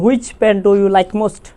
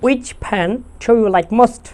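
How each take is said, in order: First: "which" opening on a sounded H, hw; slow example sentence, "which" said as hwich. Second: "which" starting on W, no H; slow example sentence, "which" said as wich; which with silent H. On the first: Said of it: "আমরা বলি হুইচ". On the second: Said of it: "উইচ শব্দটার ক্ষেত্রে কিন্তু এইচটা". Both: Shown as a demonstration.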